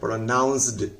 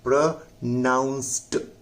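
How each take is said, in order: First: The word ends with a d sound. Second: The word ends with a t sound. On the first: The speaker calls it wrong. "जैसे आम लोग इसको पढ़ सकता है प्रोनाउंस्ड, लेकिन ये प्रोनाउंस्ड नहीं है" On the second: The speaker calls it right. "यह प्रोनाउंस्ड ट है"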